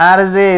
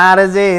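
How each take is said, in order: The two takes are said the same way.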